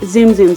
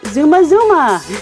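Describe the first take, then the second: First: Each part is said like the word zoom. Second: Each part is said as two syllables, zu-ma. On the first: The speaker calls it wrong. "I just said it wrong" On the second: The speaker calls it right. "The right way to say it in Japanese"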